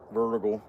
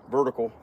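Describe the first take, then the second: No difference in how they are said.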